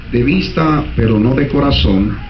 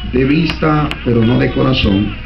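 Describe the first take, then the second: Both takes have the same delivery.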